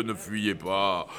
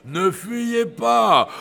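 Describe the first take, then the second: First: Ne fuyez pas said low and soft, falling; soft low plea. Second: Ne fuyez pas slowed, higher, stress on pas; slow emphatic repeat. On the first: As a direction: murmur ne fuyez pas gently. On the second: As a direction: drag out ne fuyez pas with weight on pas. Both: Acted.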